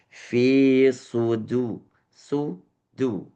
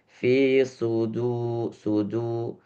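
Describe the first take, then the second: First: The u vowels sound clearly lip-rounded. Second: The u vowels sound flat and monotonous. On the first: The speaker calls it right. "tapi dibalikkan. Balik dulu baru du" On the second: The speaker calls it wrong. "jangan eh, monoton monoton di di harokat yang zummah. Jadi bukan fi sudu sudu"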